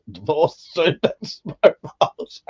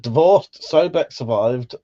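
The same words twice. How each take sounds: First: Slow, giggling reread of the chat line; laughing through it. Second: Said in the usual way. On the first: Real, not acted. Slowly, cracking up mid-word. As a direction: streamer rereads a viewer's joke, laughing.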